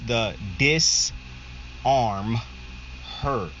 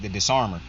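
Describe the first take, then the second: First: The phrase is said slowly, words separated. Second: The phrase is said quickly, running together. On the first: It reveals a play on words. "if you slow it down" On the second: It sounds like one word. "when you say it fast"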